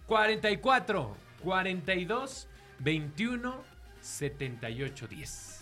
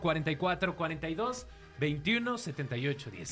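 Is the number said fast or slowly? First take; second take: slowly; fast. First: The number is said slowly. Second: The number is said at normal speed.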